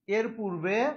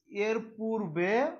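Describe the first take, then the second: First: Said in the usual way. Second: এর পূর্বে drawn out slowly, rising at the end; slow, suspended dictation of এর পূর্বে. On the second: Shown as a demonstration. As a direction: stretch এর পূর্বে for note-takers. Repeats slowly for students writing.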